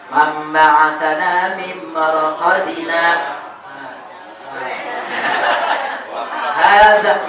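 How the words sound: There is a short pause before the last word. The speaker calls it right. "itu boleh"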